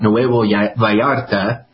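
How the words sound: The name is said with Spanish-style pronunciation. The speaker calls it right.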